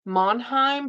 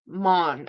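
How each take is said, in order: First: The name is said with two syllables. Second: The name is said with one syllable. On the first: The speaker calls it wrong. "I always say it wrong. I want to say Monheim" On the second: The speaker calls it right. "but it's Mon. It's just pronounced Mon"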